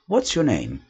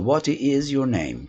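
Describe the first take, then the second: First: What and is merge into one quick syllable. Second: The words what and is are said separately. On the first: "eles preferem falar what's your name, que fica uma coisa mais fluente, mais rápido" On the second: "Não que você não possa falar what is your name, tá correto"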